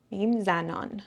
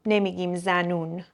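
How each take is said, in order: First: زنان with a clear aan; correct form. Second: زنون with oon; wrong colloquial form. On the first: Teacher giving the correct plural. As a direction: say زنان with the open aa. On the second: Teacher marking the wrong plural. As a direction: say زنون as the form not used. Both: Shown as a demonstration.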